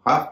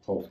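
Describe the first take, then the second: First: The vowel is an open 'ah' sound. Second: The vowel is a rounded 'aw' sound. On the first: The speaker calls it right. "इसे भी हाफ कहेंगे" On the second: The speaker calls it wrong. "हॉफ नहीं"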